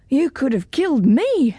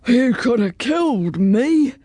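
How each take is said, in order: First: Lightly voiced girl knight, slightly higher; a hint of a higher girl's voice; Jane the girl knight. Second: Put-on dragon voice, taken aback; exhausted dragon after a battle. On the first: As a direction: answer back as the young knight, stressing ME. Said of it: "said Jane". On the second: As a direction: speak as a winded, puzzled storybook dragon. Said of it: "said the dragon". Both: A narrator's reading.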